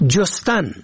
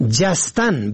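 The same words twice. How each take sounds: First: جستن said "jostan", rounded o first; damma on first letter. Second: جستن said "jastan", open a first; fatha on first letter. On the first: Teaching the verb for searching, short o vowel. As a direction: say جستن as "jos-tan". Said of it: "به ضم اول". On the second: Teaching the verb for leaping, short a vowel. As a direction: say جستن as "jas-tan". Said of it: "به فتح اول". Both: Shown as a demonstration.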